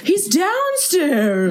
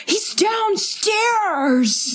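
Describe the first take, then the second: First: Put-on raised, slow, drawn-out old-timey call; mock Mike as a man from the twenties; old-timey 1920s voice. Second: High, very slow, stretched-out call; imitating how Mike actually shouts it; Mike's real way of talking. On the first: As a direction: say it like a ghost from nineteen twenty. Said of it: "why do you make him sound like he's from nineteen twenty". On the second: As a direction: draw out downstairs in a high call. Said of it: "How he actually talks is he's like".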